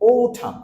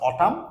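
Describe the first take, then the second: First: The first vowel is an 'oh' sound. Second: The first vowel is an 'ah' sound. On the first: The speaker calls it right. "Sound হবে ও" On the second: The speaker calls it wrong. "Not অটাম"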